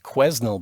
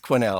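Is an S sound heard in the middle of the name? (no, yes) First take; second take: yes; no. First: The name is said with an S sound. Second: The name is said without an S sound. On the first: The speaker calls it wrong. "complain that I had pronounced it wrong" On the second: The speaker calls it right. "of course it's Quesnel"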